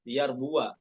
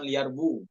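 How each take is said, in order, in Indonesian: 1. W diikuti vokal a. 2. W tidak diikuti vokal. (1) "fathah ya ... bukan sukun tapi uh, maftuhah" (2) "bukan liar bu"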